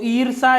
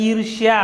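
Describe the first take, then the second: First: ईर्षा said plainly with a single r-sh; ईर्षा without the ya glide; wrong form shown. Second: ईर्ष्या with a clear shya glide; ईर्ष्या said carefully with shya; correct form shown. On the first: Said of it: "ईर्षा ऐसे नहीं लिखा जाता है". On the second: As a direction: stress the ष्या in ईर्ष्या. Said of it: "ये लिखा जाता है ईर्ष्या". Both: Shown as a demonstration.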